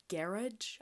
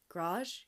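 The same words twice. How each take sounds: First: Garage said "GARE-idge", stressed up front; Garage as two syllables, GARE-idge, questioning; alternative pronunciation. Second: Garage squeezed into one syllable, "grawzh"; Garage with the first vowel dropped, rising; Canadian pronunciation. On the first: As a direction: say Garage to rhyme with carriage. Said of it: "I've heard garage before". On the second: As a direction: say Garage as "grazh", questioning. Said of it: "we have garage". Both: Shown as a demonstration.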